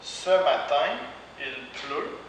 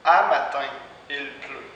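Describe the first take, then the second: First: Said in the usual way. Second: "À matin" with à in place of ce; spoken à matin. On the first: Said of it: "Par exemple". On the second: Shown as a demonstration. Teacher models spoken Quebec "À matin". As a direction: start "À matin" with a clear open à. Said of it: "va être prononcé à".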